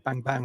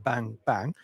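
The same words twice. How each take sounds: First: The two bangs come quickly with no gap. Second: The two bangs are separated by a clear gap. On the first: The bowler runs through without a gather. "He's bang bang through the crease" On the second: The bowler gathers back foot then front foot. "rather than"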